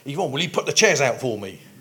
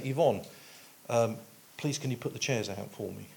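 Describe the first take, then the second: First: It is said in a harsh, irritated tone. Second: It is said in a plain, neutral tone.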